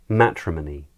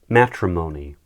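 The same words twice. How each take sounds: First: It is said in a British accent. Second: It is said in an American accent.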